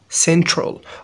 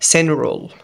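First: The t sound after n is pronounced. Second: The t sound after n is dropped.

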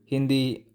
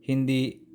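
Both takes have the same delivery.

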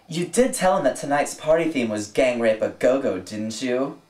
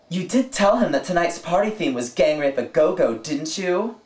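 First: It is said in a fairly neutral tone. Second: It is said in a snotty, pissed-off tone.

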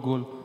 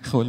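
First: The word begins with a hard g sound. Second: The word begins with a harsh kh sound. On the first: "توی ایرانی یعنی گل باق" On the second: "هلندی ها گه ندارن و به جای گه خه میگن"

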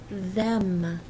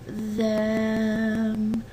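First: The word is said quickly at normal speed. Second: The word is drawn out slowly, sound by sound.

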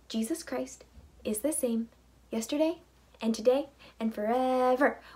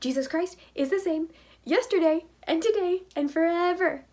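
First: It is said at a fast pace. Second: It is said at a very fast pace.

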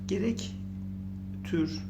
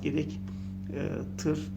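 First: The last syllable has a rounded ü vowel. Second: The last syllable has a back ı vowel. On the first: "Gerek tür olmaz" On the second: "gerek tır olmaz"

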